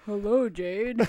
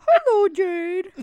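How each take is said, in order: First: The put-on voice is pitched low. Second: The put-on voice is pitched high.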